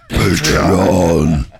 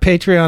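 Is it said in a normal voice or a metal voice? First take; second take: metal; normal. First: It is said in a growling metal voice. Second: It is said in his normal voice.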